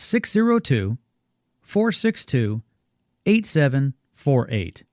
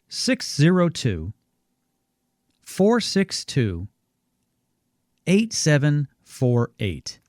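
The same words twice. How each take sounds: First: The number is read at a normal pace. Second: The number is read more slowly.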